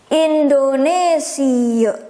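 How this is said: It is pronounced the Dutch way. "In Dutch ... you pronounce this word, the country of mine, as Indonesia"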